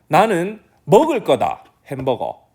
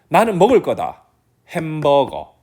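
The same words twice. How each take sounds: First: The stress falls on the words 먹을 거다. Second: The stress falls on the word 햄버거. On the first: "이렇게 얘기하면은 먹을 거다 강조되죠" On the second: "이렇게 얘기하면 햄버거가 강조되는 거거든요"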